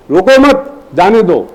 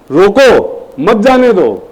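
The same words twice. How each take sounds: First: Slow "रोको मत" as one piece, pause, "जाने दो"; pause after मत. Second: Slow "रोको", pause, then "मत जाने दो" as one piece; pause after रोको. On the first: Teacher tests the class on commas, pausing after "मत". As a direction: put the comma right after "मत". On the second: Teacher tests the class on commas, pausing after "रोको". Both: Shown as a demonstration. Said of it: "केवल comma लगाने से".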